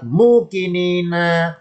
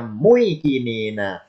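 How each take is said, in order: First: MUKININA with long held "muu", slow; changed form. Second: MUIKININA with gliding "mui", slow; original form. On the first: Teacher contrasts the written word, slow long "muu". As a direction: keep a pure long U in MUKININA. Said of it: "lafadz mukinina aslinya muikinina". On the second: Teacher contrasts the original word, slow "mui" glide. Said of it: "aslinya muikinina". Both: Shown as a demonstration.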